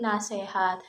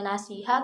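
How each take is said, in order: First: The middle vowel is an e sound. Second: The middle vowel is an i sound. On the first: The speaker calls it wrong. "Nasihat juga sama" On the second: The speaker calls it right. "yang harusnya"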